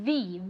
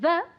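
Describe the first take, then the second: First: The word is said with a long 'thee' vowel. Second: The word is said with a short 'thuh' vowel. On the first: The speaker calls it right. "sí que tenemos que decir the, the accident, porque empieza con una vocal" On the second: The speaker calls it wrong. "no tenemos que decir the"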